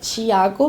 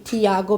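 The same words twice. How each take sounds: First: The name has its native-language pronunciation. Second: The name has its common, everyday pronunciation. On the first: "in my native language" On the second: "that's the most common pronunciation"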